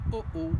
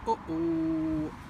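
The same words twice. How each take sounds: First: The ending is short. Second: The ending is drawn out longer.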